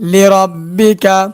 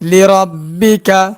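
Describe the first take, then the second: Both takes have the same delivery.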